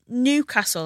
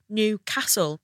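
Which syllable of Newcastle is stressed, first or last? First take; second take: first; last. First: The stress is on the first syllable. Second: The stress is on the last syllable. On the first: This is how the speaker says it. The speaker calls it wrong. "I say Newcastle and I put the emphasis on new" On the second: This is how local people say it. The speaker calls it right. "I think native people say Newcastle"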